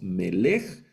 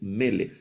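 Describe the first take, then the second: First: The stress is on the last syllable. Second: The stress is on the first syllable. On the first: The speaker calls it wrong. "No leemos melech" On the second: The speaker calls it right. "Milel, el acento va en la penúltima sílaba"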